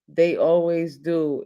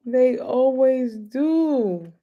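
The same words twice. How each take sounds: First: Said in the usual way. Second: Slow, high, drawn out; they always do, slowed right down; drawn-out repeat. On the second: Real, not acted. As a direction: stretch every word with a grin. Laughing repeat of the line.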